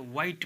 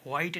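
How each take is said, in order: First: व्हाइट with a simple W, "wite"; silent H. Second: व्हाइट opening with breath, "hwite"; sounded H. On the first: Teacher giving the reading, व्हाइट with silent H. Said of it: "व्हाइट पढ़ते हैं". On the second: Teacher showing what not to say, व्हाइट with H. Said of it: "व्हाइट नहीं कहेंगे इसको". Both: Shown as a demonstration.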